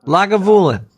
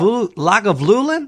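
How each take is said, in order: First: Lagavulin as "Laga-voolin"; corrected Lagavulin. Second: Lagavulin slowly stumbled as "Laga-vlulin"; mispronounced Lagavulin. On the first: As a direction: say Lagavulin with a clean "voo", no extra L. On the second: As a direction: slip an extra L into Lagavulin, higher and puzzled. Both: Real, not acted.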